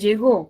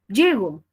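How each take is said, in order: First: The stress is on the second syllable. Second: The stress is on the first syllable. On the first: Someone else arrived in the past. "De llegó, ¿podría haber otra posibilidad?" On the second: I arrive. "si la muevo, tendría llego"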